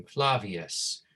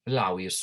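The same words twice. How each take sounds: First: Said in the usual way. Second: "Flavius" said as FLAH-wee-us; Latin W pronunciation. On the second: Shown as a demonstration. Teacher models Latin V for students, "Flavius" as FLAH-wee-us. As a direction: say "Flavius" with a W in place of the V. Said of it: "the W sound".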